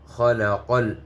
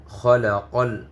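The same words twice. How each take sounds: The two takes are said the same way.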